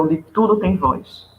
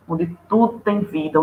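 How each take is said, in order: First: "tudo" stretched and leaned on, whole line slowed; slow stress on tudo. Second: Said in the usual way. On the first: Shown as a demonstration. Teacher stressing the point to storytellers, slow and emphatic. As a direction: draw out "onde tudo tem voz", weighting "tudo".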